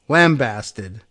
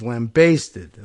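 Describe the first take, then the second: First: The second syllable does not sound like basted. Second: The second syllable sounds like basted. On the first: "if you were going to say lambasted" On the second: "if you were going to say basted"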